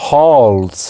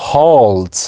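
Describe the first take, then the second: No difference in how they are said.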